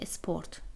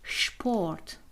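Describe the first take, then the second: First: The word starts with an s sound. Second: The word starts with an sh sound. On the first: The speaker calls it wrong. "اگر بخونیمش همینطوری میشه اسپورت" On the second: The speaker calls it right. "به آلمانی میشه شپورت"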